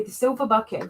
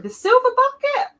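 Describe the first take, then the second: First: Said in the usual way. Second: SILVER BUCKET in a very high, loud squeal; high, loud cheer on "The silver bucket!"; excited exclamation. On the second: Real, not acted. Exclaims the same words excitedly.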